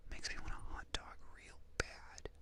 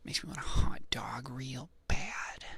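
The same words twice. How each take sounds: First: Very soft, slow whispered impression; hushed ASMR impersonation; Jennifer Coolidge. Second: Slow, half-whispered celebrity impression; drawn-out impersonation, partly whispered; Jennifer Coolidge. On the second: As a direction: stretch it out in the impression. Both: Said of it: "I need to, like, do it softer".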